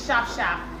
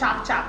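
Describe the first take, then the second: First: Each word starts with an 'sh' sound. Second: Each word starts with a 'ch' sound. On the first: The speaker calls it right. "instead of saying sharp sharp" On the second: The speaker calls it wrong. "I've heard some teachers say do chop chop"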